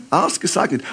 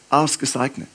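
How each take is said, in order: Both takes have the same delivery.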